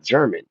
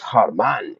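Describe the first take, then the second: First: The name begins with a J sound. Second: The name begins with an H sound. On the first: The speaker calls it wrong. "it's not German" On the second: The speaker calls it right. "G is Herman"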